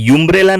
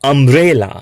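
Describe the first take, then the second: First: The word begins with a 'yoo' sound. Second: The word begins with an 'uh' sound. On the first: The speaker calls it wrong. "આને યુમ્બ્રેલા નહીં કહીએ" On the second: The speaker calls it right. "આને કહીશું અમ્બ્રેલા"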